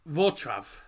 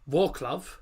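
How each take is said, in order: First: The letter L is sounded as a W. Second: The letter L is sounded as an L. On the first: This is how it is said in Poland. "actual pronunciation in Poland is" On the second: This is the usual English way of saying it. "what we call Wroclaw"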